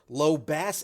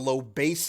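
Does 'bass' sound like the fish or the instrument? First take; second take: fish; instrument. First: Bass is said like the fish word. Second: Bass is said like the instrument word. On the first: "as in the fish" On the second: "like the instrument"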